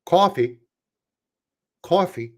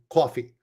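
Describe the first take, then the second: First: Attempted Midwestern "Coffee"; careful Midwestern accent on "Coffee"; Midwesterner accent. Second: "Coffee" the Brooklyn way, lower-key; Brooklyn-accented "Coffee", tossed off. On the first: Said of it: "Let me try to do it as a, uh, Midwesterner". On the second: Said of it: "That's my Brooklyn accent coming in". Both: Shown as a demonstration.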